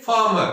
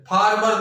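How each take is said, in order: First: फार्मर with no R, like "faama"; both Rs silent. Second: फार्मर with both Rs voiced, "faarmar"; wrong sounded Rs. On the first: Teacher modelling the correct word, फार्मर with silent Rs. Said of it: "ये दोनों ही नहीं बोले जाएंगे". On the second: Teacher showing the mistake, फार्मर with Rs sounded. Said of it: "फार्मर नहीं बोला जाएगा". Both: Shown as a demonstration.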